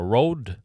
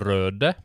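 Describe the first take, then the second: First: The first vowel is an English-style 'oh' sound. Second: The first vowel is a rounded Norwegian ø. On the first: "så de uttaler det Rode" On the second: "Det er røde"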